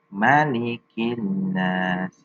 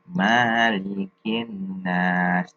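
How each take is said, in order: First: The first vowel 'ma' is kept short. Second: The first vowel 'ma' is held long. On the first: The speaker calls it right. "yang tepat ma itu pendek" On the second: The speaker calls it wrong. "membaca ma-nya itu panjang"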